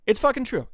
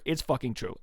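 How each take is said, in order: First: It's FUCKING true, higher and louder; emphatic repeat. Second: Said in the usual way. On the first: Shown as a demonstration. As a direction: hammer the word fucking, pitched up.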